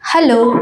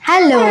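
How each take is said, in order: First: The voice sounds natural with no effect. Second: The voice sounds high and childlike, with echo. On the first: "இது வந்து இப்போ normal" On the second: "childish வாய்ஸ்ல அப்படியே echo அடிக்கிற மாரி இருக்கு"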